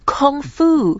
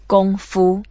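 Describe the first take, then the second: First: The word is said with English pronunciation. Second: The word is said with Chinese pronunciation. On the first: "my Western friends, ... they say, oh" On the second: "I say it in a Chinese way"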